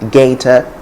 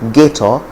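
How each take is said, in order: First: It is said with a standard English accent. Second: It is said with a Nigerian English accent. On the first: "in standard English it's simply gator and gator" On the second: "Nigerians will say gator and gator"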